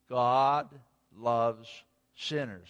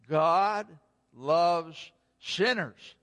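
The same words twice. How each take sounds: First: It is said at normal volume. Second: It is said loudly.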